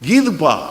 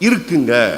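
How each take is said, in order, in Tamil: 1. இது சென்னை வட்டார வழக்கில் சொல்லப்படுகிறது. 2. இது கோயம்புத்தூர் வட்டார வழக்கில் சொல்லப்படுகிறது. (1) "சென்னைக்கு வந்துருச்சுன்னு வைங்க, எங்க ஊர்ல எல்லாத்தையும் நாங்க சுருக்கிடுவோம்" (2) "கோயம்புத்தூர்காரங்க தான் ரொம்ப மரியாதையா பேசுறவங்க"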